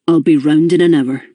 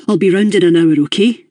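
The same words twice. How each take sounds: First: Firm. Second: Said in the usual way. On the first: A narrator's reading. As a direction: settle it, no arguing. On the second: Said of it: "he said again".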